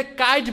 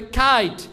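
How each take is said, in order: First: কাইট with a plain k; common mispronunciation. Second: কাইট as aspirated "khait"; corrected pronunciation. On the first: Teacher showing what we usually say, common mispronunciation. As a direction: say কাইট as "kait", no puff on k. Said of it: "আমরা যেটাকে কাইট বলি". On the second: Teacher correcting the word kite, corrected pronunciation. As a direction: puff air on the k of কাইট. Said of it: "এটা হবে কাইট". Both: Shown as a demonstration.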